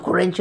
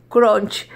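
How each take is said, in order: First: "Crunch" as "curencho", with extra vowels; mispronounced Crunch. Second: "Crunch" as short "cronch", with an o sound; corrected Crunch. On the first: Learner rejecting her own attempt, "Crunch" mispronounced as "curencho". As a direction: say "Crunch" in syllables, "cu-ren-cho", Spanish accent. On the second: Learner correcting herself, "Crunch" as falling "cronch". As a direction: say "Crunch" as "cronch", no vowel on the end. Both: Real, not acted. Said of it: "No, Crunch no".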